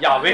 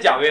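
First: The name begins with a 'y' sound. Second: The name begins with a 'j' sound. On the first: The speaker calls it right. "是亚威" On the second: The speaker calls it wrong. "不是贾威啊"

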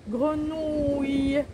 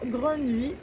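First: The ending has an audible y-like glide. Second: The ending has no audible y-like glide. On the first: The speaker calls it right. "en arrondissant la bouche comme ça. Ouille. Et on entend un i à la fin" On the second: The speaker calls it wrong. "ce n'est pas grenouille, c'est incorrect"

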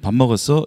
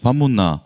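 First: It has a Seoul accent, rising at the end. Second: It has a Busan accent, rough and low.

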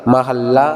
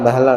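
First: The middle is 'ha' with a doubled l. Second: The middle is a short 'hi' sound. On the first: The speaker calls it right. "ਹਾਹੇ ਤੇ ਅਦਕ ਲਗਾ ਕਰਕੇ ਮਹੱਲਾ ਪਾਠ ਕਰਨਾ" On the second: The speaker calls it wrong. "ਮਹਿਲਾ ਨਹੀਂ ਕਰ ਦੇਣਾ"

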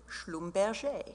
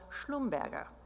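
First: The name is pronounced the French way. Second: The name is pronounced the German way. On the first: The family adapted the name after moving to Paris. "once they went to Paris, they changed the pronunciation to" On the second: This is the family's original German name. "whose German side was Schlumberger"

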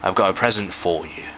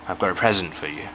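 First: The word 'for' has its full vowel. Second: The word 'for' has a weak reduced vowel. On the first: The speaker calls it wrong. "就唔會讀成" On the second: The speaker calls it right. "唔係句子尾，冇理由去強調佢，我就會讀成咧"

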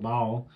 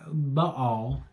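First: The word is said as one syllable. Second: The word is said as two syllables. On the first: "In Texas, it's one syllable" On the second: "I believe, how you really pronounce it"

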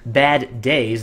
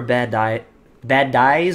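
First: It is said without a Southern US twang. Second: It is said with a Southern US twang. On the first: The speaker calls it right. "Now I don't sound like some southern hick" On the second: The speaker calls it wrong. "What was that? Blech"

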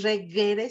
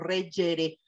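First: The g is said with the soft classical sound. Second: The g is said with a harsher, changed sound. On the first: This is the classical Latin pronunciation. "no es regere" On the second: This is a later, Italian-influenced pronunciation. "vuelve a cambiar el sonido"

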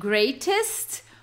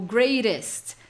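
First: The t is crisp and clearly released. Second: The t is a soft flap, like a quick r. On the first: "sendo greatest com o T mais acentuado britânico" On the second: "greatest é, com mais com o rarariraru, né? Que vocês sabem que é um americano"

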